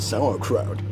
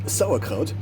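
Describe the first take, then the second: First: It is said with an English pronunciation. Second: It is said with a German pronunciation. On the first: "in English, with my English accent, I would pronounce it" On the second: "in German you would pronounce it"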